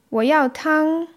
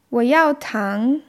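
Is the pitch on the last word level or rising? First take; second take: level; rising. First: The last word has a high level pitch. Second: The last word has a rising pitch. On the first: The speaker wants soup. "ich will Suppe" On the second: The speaker wants sugar. "ich will Zucker"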